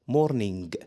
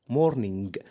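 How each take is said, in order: No difference in how they are said.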